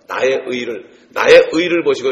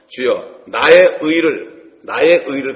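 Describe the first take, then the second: First: Said in the usual way. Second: Loud, drawn-out psalm cry, very slow; fervent plea. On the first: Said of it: "이런 얘기가 많이 하는데". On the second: Acted. David pleading his righteousness to God, loud slow cry. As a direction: cry out to God, stretching each word. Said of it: "그런 얘기를 많이 했어요".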